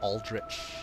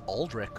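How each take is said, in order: First: The ch is said as in church. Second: The ch is said as a k sound.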